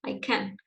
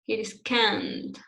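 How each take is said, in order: First: "can" short and softer, without a held vowel. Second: "can't" slowly drawn out with a held vowel; long CAN'T. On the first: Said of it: "not short, not like I can". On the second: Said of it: "Long, not short". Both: Shown as a demonstration.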